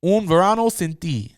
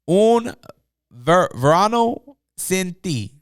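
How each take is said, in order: First: "Un verano sin ti" said smoothly in Spanish, falling at the end; Spanish title. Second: "verano sin ti" sounded out slowly, syllable by syllable; careful Spanish. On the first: Vlogger settling on the Spanish title pronunciation, smooth second try. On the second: Vlogger attempting the Spanish album title for viewers, slow careful pronunciation. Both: Shown as a demonstration. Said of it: "I believe is how you pronounce it".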